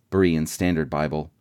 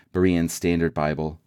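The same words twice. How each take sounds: The two takes are said the same way.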